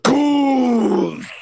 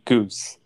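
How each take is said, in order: First: It is said loudly, with lively energy. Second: It is said flatly, with little energy.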